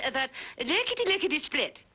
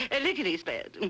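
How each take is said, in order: First: Says "lickety-lickety-split" with lickety twice, fast; doubled lickety. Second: "lickety-split" with one lickety, through a laugh; corrected lickety-split. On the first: Actress trying the hillbilly phrase, "lickety-lickety-split" doubled. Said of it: "there's just one lickety". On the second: Actress correcting herself for the hillbilly girl, "lickety-split" with one lickety. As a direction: say "lickety-split" with a single lickety, amused. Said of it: "I'm sorry, darling". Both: Pretend.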